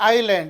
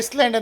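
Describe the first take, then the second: First: No s sound is heard before the l. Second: An s sound is heard before the l. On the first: The speaker calls it right. "ಇದರ ಉಚ್ಚಾರ ಐಲ್ಯಾಂಡ್" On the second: The speaker calls it wrong. "ಇದನ್ನು ಹೆಚ್ಚಾಗಿ ಐಸ್ಲ್ಯಾಂಡ್ ಅಂತ ಹೇಳಿ ಜನರು ಓದ್ತಾರೆ"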